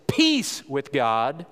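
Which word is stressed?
peace. The word peace is stressed.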